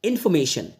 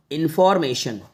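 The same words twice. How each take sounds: First: इन्फॉर्मेशन without R, "in-fo-me-shan"; silent R. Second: इन्फॉर्मेशन with the R sounded, "in-for-me-shan"; R pronounced. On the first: Teacher repeating native speakers' इन्फॉर्मेशन, R left silent. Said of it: "आपको इसको बोलना बस इन्फॉर्मेशन". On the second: Teacher reading इन्फॉर्मेशन for beginners, R pronounced. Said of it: "इस रा को मत बोलना". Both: Shown as a demonstration.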